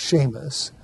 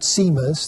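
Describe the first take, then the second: First: The name begins with an sh sound. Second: The name begins with a plain s sound. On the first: The speaker calls it right. "an S which is before an E or an I is pronounced like our S H" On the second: The speaker calls it wrong. "that's not Seamus"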